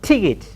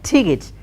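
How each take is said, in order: Both takes have the same delivery.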